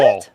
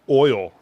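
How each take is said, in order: First: The vowel is an 'aw' sound, like all. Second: The vowel is the usual 'oy' sound.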